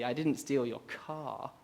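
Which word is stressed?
car. The stress is on the word car.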